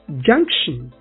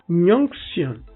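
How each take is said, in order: First: The word is said with a standard accent. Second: The word is said with an Efik accent. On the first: The speaker calls it right. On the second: The speaker calls it wrong.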